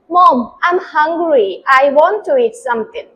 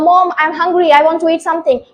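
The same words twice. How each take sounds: First: It is spoken slowly and softly. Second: It is spoken quickly, in a hurry.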